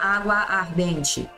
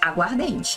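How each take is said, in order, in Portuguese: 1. As duas palavras são ditas separadamente, mantendo os dois A. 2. As palavras são ditas juntas, fundindo os dois A. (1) "não ia falar água ardente" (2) "É aguardente"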